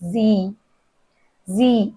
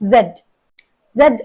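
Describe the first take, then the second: First: The letter name is said the American way. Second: The letter name is said the British way. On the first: "American pronunciation" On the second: "British pronunciation"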